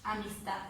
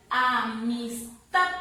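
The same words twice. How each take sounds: First: Said in the usual way. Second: Amistad slowly syllable by syllable, TAD loud; loud, drawn-out Amistad showing the stressed TAD; stress on final syllable. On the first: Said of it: "a diferenciar ahí". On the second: Shown as a demonstration. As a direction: stretch Amistad and hit the last syllable hard. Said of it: "dónde está la mayor fuerza de voz".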